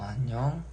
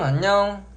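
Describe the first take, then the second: First: It is said flatly with low energy. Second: It is said brightly with high energy. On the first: This is a relaxed everyday way of talking. The speaker calls it wrong. "영통할 때 내가 이런 텐션으로 있으면 안 되잖아" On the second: This is a bright way of talking on video calls. The speaker calls it right. "이렇게 하는 거죠"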